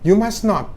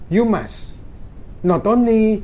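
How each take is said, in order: First: 'Must not' runs together without a pause. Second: There is a pause between 'must' and 'not'. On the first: It sounds like a negative sentence. The speaker calls it wrong. "Jangan you must not" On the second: 'Not only' is one linking phrase. The speaker calls it right. "jadi bacanya gitu"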